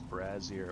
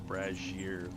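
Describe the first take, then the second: First: The middle consonant is a plain z sound. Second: The middle consonant is a zh sound.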